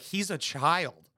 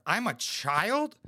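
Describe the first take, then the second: First: Slow, flat mock delivery of He's a child; mocking the wife. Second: Slow, drawn-out outraged question; offended disbelief. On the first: Mimicking the wife dismissing her husband, slow and dry. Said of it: "she's like". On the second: Pretend. Pretending to be the insulted husband, slow offended disbelief. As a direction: act insulted, stretching out I'm a child. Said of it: "if I had a bitch and she said that".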